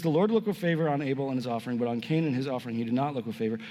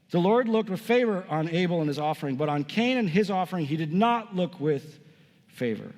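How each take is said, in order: First: Fast, run-on scripture reading sinking in pitch; quick recap reading. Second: Deliberate scripture reading. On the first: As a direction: rattle through the verse as a recap. Quick re-reading of the same verse. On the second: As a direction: read it out, pausing before the final word. First, deliberate reading of the verse. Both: Real, not acted.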